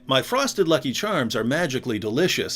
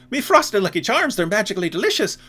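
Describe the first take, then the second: First: It is said in an American accent. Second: It is said in an Irish accent.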